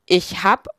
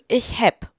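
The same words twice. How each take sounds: First: "hab" with an open a; a-vowel variant. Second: "häpp" with a short open e; e-vowel variant. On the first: Narrator contrasting regional forms, "hab" said with an a. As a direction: say "hab" with an a and final p sound. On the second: Narrator contrasting regional forms, "häpp" said with a short e. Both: Shown as a demonstration. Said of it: "Unterschiede wie".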